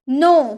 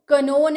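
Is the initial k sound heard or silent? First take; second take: silent; heard. First: The word starts with an n sound. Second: The word starts with a k sound. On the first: The speaker calls it right. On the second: The speaker calls it wrong. "कनो नहीं"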